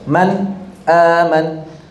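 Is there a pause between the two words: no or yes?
yes. There is a short break between the words. This follows a reading tradition that pauses before the glottal stop. "dia di saktah, dia dijeda"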